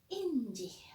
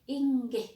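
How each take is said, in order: First: The middle consonant is a j sound. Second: The middle consonant is a hard g sound. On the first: This form is mixed with English influence. "Ini bahasa yang sudah dicampuri bahasa Inggris" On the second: This is the original Javanese form. "Ini ini asli bahasa Jawa ya"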